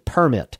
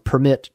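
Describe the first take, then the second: First: The stress is on the first syllable. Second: The stress is on the second syllable. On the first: An official document granting legal permission. "to permit. What do we do when we get a permit?" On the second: To allow something. "I'll change the voice inflection from permit"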